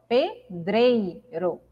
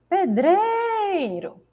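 First: The word is said at a normal volume. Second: The word is called out loudly, stretching the stress.

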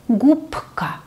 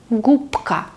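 Both takes have the same delivery.

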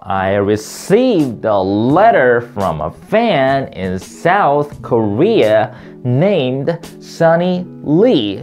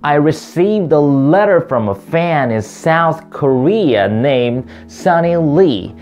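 First: The pitch climbs and drops in big, steep peaks. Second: The pitch rises and falls in gentle, smooth curves. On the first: "오늘 굉장히 산을 많이 타네요" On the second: "이제 부드럽게 타볼까요?"

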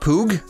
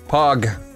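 First: The vowel is a long 'oo' sound. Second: The vowel is a short 'o' sound. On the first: The speaker calls it right. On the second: The speaker calls it wrong.

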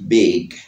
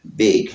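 First: The final g is soft and light. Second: The final g is soft and light.

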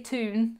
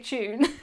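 First: The word is said the American way. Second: The word is said the British way. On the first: "We don't say tune" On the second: "how we say tune in the UK"

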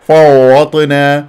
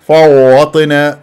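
Both takes have the same delivery.

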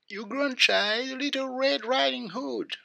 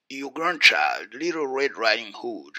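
First: It is said in a changed, disguised voice. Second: It is said in the reader's normal voice.

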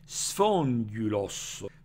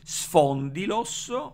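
First: The vowel after 'spond' is a rounded ü. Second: The vowel after 'spond' is a plain i. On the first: This is the ancient scholarly reading. "Con la pronuncia erasmiana o etacista" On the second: This is the modern Greek style reading. "Con la pronuncia eh, roicliniana o itacista"

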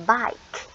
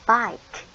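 Both takes have the same delivery.

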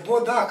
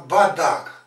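First: The first vowel sounds like o. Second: The first vowel sounds like a. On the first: The speaker calls it wrong. "Він не Бодак" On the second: The speaker calls it right. "а Бадак"

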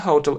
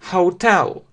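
First: The stress is on the first syllable. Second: The stress is on the last syllable. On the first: The speaker calls it wrong. "Почему-то многие говорят, что это hotel. Но это не hotel" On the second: The speaker calls it right. "Ударение именно на последний слог"

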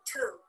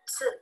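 First: It begins with a plain t sound. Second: It begins with a ts sound. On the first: The speaker calls it wrong. "the pronunciation of this letter is not two" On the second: The speaker calls it right. "it is tsu"

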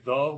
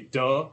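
First: The word starts with a soft th sound. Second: The word starts with a hard d sound. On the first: This is the standard way of saying it. "We don't say the" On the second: This is how local Pidgin speakers say it. "we say duh"

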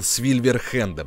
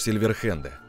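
First: The word starts with an 'sv' sound. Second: The word starts with a plain 's' sound. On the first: The speaker calls it wrong. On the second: The speaker calls it right.

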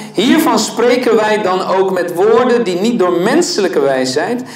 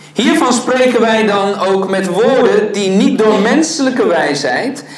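The two takes are said the same way.

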